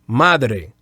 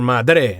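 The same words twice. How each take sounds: First: The stress is on the first syllable. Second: The stress is on the last syllable. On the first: The speaker calls it right. "Madre, first syllables" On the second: The speaker calls it wrong. "Don't say padre or madre"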